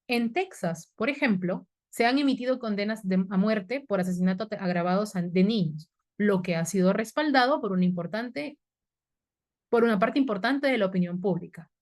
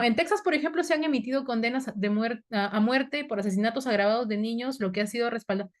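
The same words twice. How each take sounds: First: "En Texas," pause, "por ejemplo," pause, then on; correct comma pauses. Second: "En Texas, por ejemplo" run together in one breath; read without comma pauses. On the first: Teacher modelling the correct reading, pausing at each comma. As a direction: set "por ejemplo" apart with a pause either side. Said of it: "la forma correcta sería". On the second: Teacher reading a student's sentence as written, without comma pauses. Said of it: "leo, leo y no veo dónde está la coma". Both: Shown as a demonstration.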